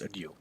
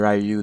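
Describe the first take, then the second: First: The name is said the Japanese way. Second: The name is said the anglicized way. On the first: The speaker calls it right. "It's Ryu" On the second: The speaker calls it wrong. "Some people say Ryu. That's incorrect"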